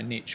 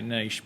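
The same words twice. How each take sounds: First: The word is said the American way. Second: The word is said the British way. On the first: The speaker calls it wrong. "the Americans put it terribly ... we don't say niche" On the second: The speaker calls it right. "we say niche"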